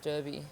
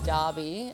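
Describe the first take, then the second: First: It uses the Western Australian pronunciation of Derby. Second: It uses the eastern Australian pronunciation of Derby. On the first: "in Western Australia it's Derby" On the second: "in the eastern states it's Derby"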